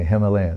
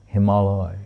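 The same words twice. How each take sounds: First: It is said in the usual English way. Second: It is said as Hima joined to alaya. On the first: The speaker calls it wrong. "When I say Himalaya, no" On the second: The speaker calls it right. "Because it's Hima and Aloy"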